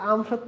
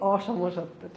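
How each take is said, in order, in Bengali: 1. শব্দটি দুটি শব্দ হিসেবে বলা হয়, 'am shotto'। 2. শব্দটি একটি শব্দ হিসেবে বলা হয়, 'oshomshotto'। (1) "উচ্চারণ করতে যেয়ে বলতাম কি আম সত্য" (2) "দিয়ে দিও না কি অসমসত্ব"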